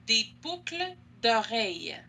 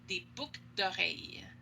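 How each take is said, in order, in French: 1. On le dit lentement, avec le L prononcé. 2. On le dit vite, avec le L muet. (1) "si je parle lentement, si je fais une dictée" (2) "quand on parle rapidement, on prononce pas le L de boucle"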